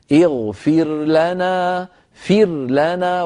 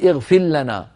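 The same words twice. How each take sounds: First: "اغفر لنا" very slow, with the ra of "اغفر" sounded before the lam; clear ra. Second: "اغفر لنا" with the ra merged into a doubled lam, "اغفلّنا"; wrong merged form. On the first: Teacher shows the right reading: slow "اغفر لنا" with a clear ra. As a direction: keep the ra of "اغفر" separate from the lam of "لنا", slowly. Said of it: "فتقول". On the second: Teacher shows the wrong reading: ra merged into doubled lam. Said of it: "ولا تقول". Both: Shown as a demonstration.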